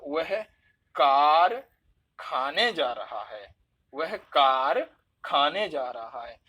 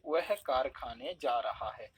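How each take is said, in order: First: कार punched loud, then a break before खाने; stress on कार, split from खाने. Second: Said in the usual way. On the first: Shown as a demonstration. Teacher showing students a wrong word split, कार stressed hard and cut off from खाने. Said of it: "कार और खाने दोनों को अलग कर दिया". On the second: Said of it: "normal हमने कह दिया".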